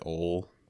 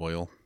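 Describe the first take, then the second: First: The word is said in a Texan accent. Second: The word is said in a standard accent. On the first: "like the Texan accent, they say oil" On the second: "instead of oil"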